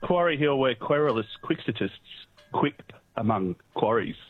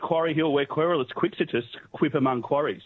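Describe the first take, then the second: First: It is said slowly. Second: It is said at a normal pace.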